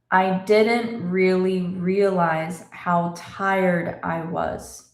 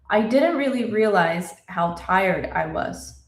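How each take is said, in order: First: The sentence is spoken slowly. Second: The sentence is spoken fast.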